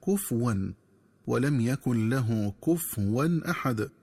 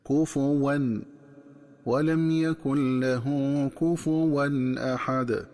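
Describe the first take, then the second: First: كفوا with a silent fa, "kufwan"; wrong reading. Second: Slow chanted كفوا with a damma on the fa, "kufuwan"; correct recitation. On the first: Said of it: "من الخطأ قراءتها بتسكين الفاء". (قراءة خاطئة بتسكين الفاء) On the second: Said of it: "تقرأ بضم الفاء هكذا". (تلاوة كفوا بضم الفاء) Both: Shown as a demonstration.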